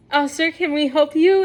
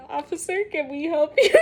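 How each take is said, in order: First: Normal-volume, friendly clerk question; aunt's polite question. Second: Hushed, polite bank-clerk question to the officer; aunt's polite question. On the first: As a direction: repeat it evenly, a shade brighter. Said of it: "my aunt Michelle goes". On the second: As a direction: ask it softly, like a nervous clerk. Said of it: "my aunt is just". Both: Retold or imitated.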